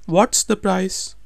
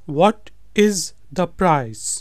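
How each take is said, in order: First: What is is shortened into one quick word. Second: What is is said as two full words.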